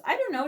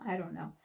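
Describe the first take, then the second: First: Said in the usual way. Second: Dropped low and soft, to herself; resigned mutter. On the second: Real, not acted. Answering her own question to viewers, a low soft resigned mutter. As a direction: let it fall away under your breath.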